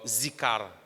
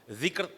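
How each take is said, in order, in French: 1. Le mot commence par un son z. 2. Le mot commence par un son th. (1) "Mauricien l'y prononce par zikar" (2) "nous l'y lit dans bout de la langue"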